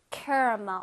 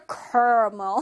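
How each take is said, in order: First: Caramel in three beats, KEH-ruh-muhl; stressed KEH opening on caramel; usual pronunciation. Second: Caramel as two beats, KAR-mul; alternative pronunciation. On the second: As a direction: squeeze caramel into car-mul. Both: Shown as a demonstration. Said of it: "어떤 사람은 caramel".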